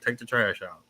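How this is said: It imitates the speaker's mother's voice.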